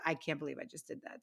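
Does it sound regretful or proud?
proud. It sounds proud and amazed.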